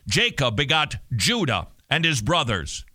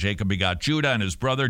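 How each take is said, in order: First: It is read in a formal, authoritative tone. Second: It is read casually, like everyday talk. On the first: The text is set apart as special and demanding attention. The speaker calls it right. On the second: The text is treated as ordinary speech. The speaker calls it wrong.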